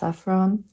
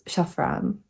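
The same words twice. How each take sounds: First: The word is said with an English pronunciation. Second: The word is said with a Czech pronunciation. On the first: "I think it's pronounced saffron" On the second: "in Czech it's saffron"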